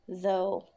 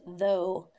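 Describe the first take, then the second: First: The word begins with a voiced th sound. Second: The word begins with a voiced th sound.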